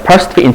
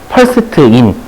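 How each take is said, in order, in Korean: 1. 부드럽게 굴린 영어 억양으로 말했어요. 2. 한국식 영어 억양으로 말했어요. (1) "이게 굴린 단, 굴린 영어" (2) "그 다음에 한국 사람"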